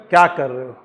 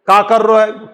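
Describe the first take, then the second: First: Said in the usual way. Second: Braj-accented "का कर रो है". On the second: Shown as a demonstration. Teacher contrasting Braj speech with standard Hindi, Braj accent. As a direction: say it the Braj way, with shortened dialect vowels. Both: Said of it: "लेकिन उसका जो accent है".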